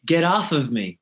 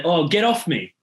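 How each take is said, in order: First: American accent, "Get off of me" with "of" added. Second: Australian accent, "Get off me" with no "of"; louder Australian demo of "Get off me". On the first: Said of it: "But you guys say". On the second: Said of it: "I'd say". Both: Shown as a demonstration.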